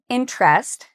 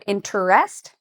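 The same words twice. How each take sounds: First: The word is said with two syllables. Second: The word is said with three syllables. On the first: "it tends to be two syllables" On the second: "Instead of"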